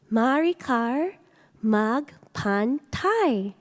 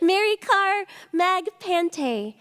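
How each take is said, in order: First: The surname's last syllable sounds like 'tie'. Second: The surname's last syllable sounds like 'tay'. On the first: The speaker calls it right. "It's Thai like Thailand" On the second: The speaker calls it wrong. "It is not Mary Car Mag Pante"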